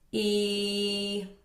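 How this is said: The voice is flat and neutral. "bored neutral space"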